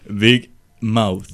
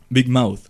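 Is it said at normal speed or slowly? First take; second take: slowly; normal. First: It is said more slowly. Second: It is said at normal speed.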